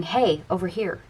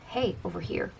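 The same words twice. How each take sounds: First: Said in the usual way. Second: Hey, over here repeated much softer; softer echo. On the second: Retold or imitated. Universe nudging the client again, a softer echo. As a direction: let the second Hey, over here fall away quietly.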